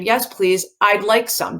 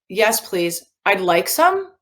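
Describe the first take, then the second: First: The voice does not rise at the end. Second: The voice goes up at the end. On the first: It is a statement giving information. The speaker calls it right. "Our voices do not go up at the end" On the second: It sounds like asking whether one really wants some. The speaker calls it wrong. "Let's say that it did"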